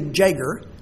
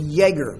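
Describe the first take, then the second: First: The word begins with an English J sound. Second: The word begins with a Y sound. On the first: The speaker calls it wrong. "they don't say Jäger" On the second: The speaker calls it right. "they say Jäger, because in German, if you want to pronounce a Y, you put a J"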